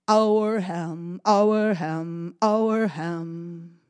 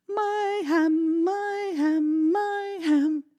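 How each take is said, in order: First: Loud sung happy chant; singsong chant. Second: High, loud sung chant; sung, greedy singsong. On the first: Dog carrying the ham again, singing. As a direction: sing it proudly as he walks. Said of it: "and he sang". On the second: Cat again singing that the ham is hers. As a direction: sing it high, gloating. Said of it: "she started singing". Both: Acted.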